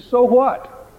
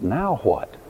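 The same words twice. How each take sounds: First: High, louder sneering so what; mocking Satan. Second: Steady and inviting; God's gentle question. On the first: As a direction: toss it off like a scornful devil. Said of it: "Satan's question is". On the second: Retold or imitated. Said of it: "God's question is".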